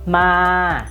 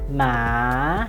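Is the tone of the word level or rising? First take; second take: level; rising. First: The word is said with a level tone. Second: The word is said with a rising tone.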